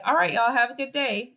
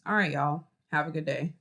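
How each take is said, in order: First: Bright upbeat farewell, higher and louder; upbeat goodbye with energy; cheerful. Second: Lower, deflated goodbye; dull, unenthusiastic farewell; flat and low. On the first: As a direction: say it like you mean it, cheerful. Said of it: "So I could say". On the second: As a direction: say it with no energy at all. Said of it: "Or I could say". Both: Shown as a demonstration.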